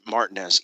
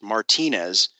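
First: The name is said the local Georgia way. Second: The name is said the Southwestern way. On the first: "everyone there calls it Martinez" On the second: "as I would say it coming from the Southwest"

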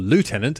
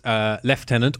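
First: It is said the American way, like lootenant. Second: It is said the British way, like leftenant.

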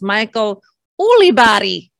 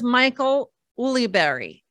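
First: The surname is said the original way. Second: The surname is said the anglicized way. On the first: This is the name's own correct pronunciation. The speaker calls it right. "the actual correct pronunciation of his name is" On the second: This is how people in the States know the name. The speaker calls it wrong. "in the States, he's known as"

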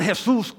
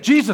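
First: The name is said with Spanish sounds. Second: The name is said with English sounds. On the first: The speaker calls it wrong. "not Jesus, or, you know, hey, ¿qué hubo? ¿Qué pasa?" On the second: The speaker calls it right. "it's Jesus"

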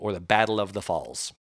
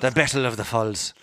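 First: It is said in the speaker's plain accent. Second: It is said in a put-on Irish accent.

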